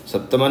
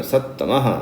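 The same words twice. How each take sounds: First: सप्तमा said with a p sound, the wrong way; wrong pronunciation. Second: सत्तमः with a half t then a full t, double tt; correct Sanskrit pronunciation. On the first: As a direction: show the mistake, सप्तमा with p. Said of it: "सप्तमा नहीं बोलना". (गलत उच्चारण: सप्तमा) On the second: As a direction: teach it clean, सत्-तमः. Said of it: "आधे ता को इधर बोलना है, फुल ता को उधर बोलना है". (सही उच्चारण: सत्तमः, आधा त फिर पूरा त) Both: Shown as a demonstration.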